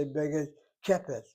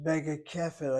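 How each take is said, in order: First: Kepet with a hard P sound. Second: Kefet with a soft F sound. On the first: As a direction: say Kepet with a P instead of an F. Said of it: "I don't say Bega Kepet". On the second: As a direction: say Kefet with an F, never a P. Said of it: "Notice how I pronounce it". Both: Shown as a demonstration.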